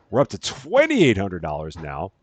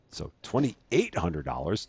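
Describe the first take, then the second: First: Twenty-eight said with the stress on twenty. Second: Twenty-eight said evenly, no push on twenty; even stress. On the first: Real, not acted. Streamer tallying his store earnings, stress on twenty. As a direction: lean hard on the twenty of twenty-eight. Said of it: "Don't know why I put the emphasis on the twenty". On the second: Shown as a demonstration. Streamer correcting his misplaced stress, even and level. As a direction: say twenty-eight hundred dollars flatly, correcting himself. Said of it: "that's what I meant to say".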